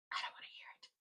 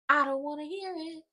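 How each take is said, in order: First: Breathy whispered repeat; I don't wanna hear it, whispered under the breath. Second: Firm and a bit higher, fed-up; I don't wanna hear it, said firmly and higher; emphatic. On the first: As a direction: drop to a whisper as an aside. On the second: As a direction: declare it with finality. Repeated line, then whispered. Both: Real, not acted.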